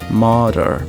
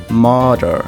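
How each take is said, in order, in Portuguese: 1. Tem um R retroflexo americano forte. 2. Tem um R retroflexo americano forte.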